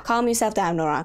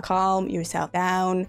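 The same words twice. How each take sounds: First: Quick, firm order to yourself; brisk self-command. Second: Drawn-out, slow calming words; slow self-soothing. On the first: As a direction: tell yourself to calm down, briskly. Tells herself to calm down. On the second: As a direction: talk yourself down slowly, word by word. Repeats it to steady herself. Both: Real, not acted.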